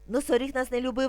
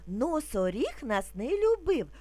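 First: It is spoken at a very rapid pace. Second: It is spoken calmly at a slow pace. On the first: "Тепер дуже швидко" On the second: "Спочатку будемо вимовляти спокійно, не спіша"

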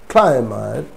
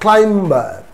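First: The B is silent after the M. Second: A B sound is heard after the M. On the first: The speaker calls it right. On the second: The speaker calls it wrong.

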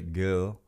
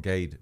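First: It is said softened, sounding like 'gil'. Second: It is said like the spelling, 'gade'. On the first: "they'd say Gil" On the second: "Instead of Gade or Gather or Gade"

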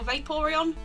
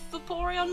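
First: The name is said with a 'vapour' sound. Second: The name is said without a 'vapour' sound. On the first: The speaker calls it wrong. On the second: The speaker calls it right.

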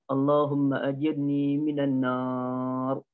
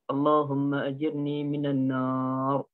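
Both takes have the same delivery.

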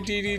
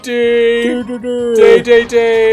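First: Each syllable has a 'dee' vowel. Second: Each syllable has a 'day' vowel. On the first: This is the American reading based on the spelling. "Americans say DDD because that's how it looks like" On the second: This is the original Japanese pronunciation. "is how it's pronounced in Japanese"

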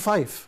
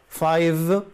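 First: The word ends with a voiceless f sound. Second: The word ends with a voiced v sound. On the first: The speaker calls it wrong. "ما اقولش فايف" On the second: The speaker calls it right. "اقول فايف بالفي كده"

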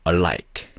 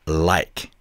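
No difference in how they are said.

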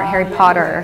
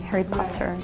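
First: The t in Potter sounds like a soft d. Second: The t in Potter is a clear t. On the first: "the rest of us did like the D sound more" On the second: "But you said the T"

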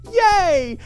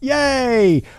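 First: It sounds exaggeratedly, excessively enthusiastic. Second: It sounds mildly enthusiastic, not fully genuine. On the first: "It's too much" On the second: "not quite like true enthusiasm"

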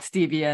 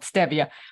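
First: It is pronounced the American English way. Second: It is pronounced the Latin American way. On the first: This is how people in the United States say it. "in the United States, we call it stevia" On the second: This is how people in Latin American countries say it. "in Latin American countries, they call it stevia"

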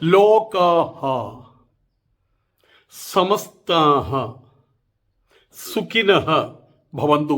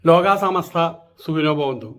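First: The words end with an added breathy 'ha' sound. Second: The words end without any added breathy sound. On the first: The speaker calls it right. "അങ്ങനെയാണ് പറയേണ്ടത്" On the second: The speaker calls it wrong. "ഇതാണ് പറഞ്ഞിട്ടുള്ളത്"

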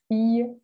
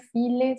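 First: The double L is pronounced as a Y glide. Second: The double L is pronounced as an L sound. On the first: The speaker calls it right. "sino fille" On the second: The speaker calls it wrong. "nada de fille, file"

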